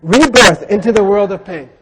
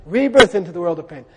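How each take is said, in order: First: Emphatic reading. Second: Said in the usual way. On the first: Shown as a demonstration. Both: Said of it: "It says here".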